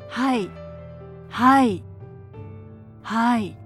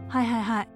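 First: It is said slowly and calmly. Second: It is said quickly and briskly.

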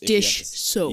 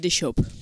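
First: The s of soap is said clearly and separately. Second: The s of soap blurs into the sh sound. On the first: The speaker calls it right. "It's one of those things you have to think about" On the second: The speaker calls it wrong. "Otherwise, it comes out dish soap"

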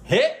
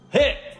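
First: The word is said as a doubtful question. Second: The word is said as an emphatic exclamation. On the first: It is doubtful the film was a hit. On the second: The film really was a hit.

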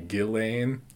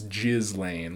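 First: The name is said with no s sound. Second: The name is said with a clear s sound. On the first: The speaker calls it wrong. "It's technically Ghislaine, like you don't pronounce the S" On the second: The speaker calls it right. "then it's Ghislaine, like Jizzlane"

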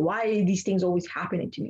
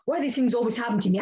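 First: The question is asked in a calm, complaining tone. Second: The question is asked in an angry tone. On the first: The speaker wonders why life keeps testing them. "That's level one" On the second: The speaker resents the world and hates it. "it also depends how you say it"

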